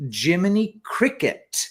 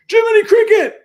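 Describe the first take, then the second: First: Said in the usual way. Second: High, loud mock yell of the name; sudden high-pitched holler; shout-out. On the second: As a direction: belt it out as a comic shout-out. Performing a requested shout out.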